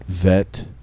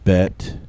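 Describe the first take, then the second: First: The first consonant is a soft fricative. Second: The first consonant is a hard stop. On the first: The letter has no dot inside. "first in their soft form" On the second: The letter has a dot inside. "then in the hard form with the dagesh lene"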